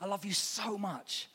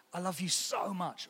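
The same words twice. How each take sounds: First: Softer and slower I love you so much; slow, soft, loving line; tender so much. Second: Soft, tender I love you so much; gentle loving whisper-soft line. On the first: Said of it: "adds a bit of the mm". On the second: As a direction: say it softly like to a loved one. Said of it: "that word so is really emotive". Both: Shown as a demonstration.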